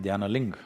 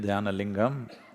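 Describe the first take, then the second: First: The final syllable is cut off, North Indian style. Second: The word is said with its final syllable.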